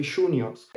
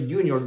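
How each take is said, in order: First: Juniors with a sh sound, shoo-nyors, rolled r; Argentinian pronunciation. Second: Juniors with an English y sound, joo-nyors; wrong pronunciation. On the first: Teacher showing learners the Argentinian way, shoo-nyors. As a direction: say juniors with the Rioplatense sh at the start. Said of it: "we say juniors". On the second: Teacher showing learners the wrong way, English y in juniors. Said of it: "We don't say juniors". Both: Shown as a demonstration.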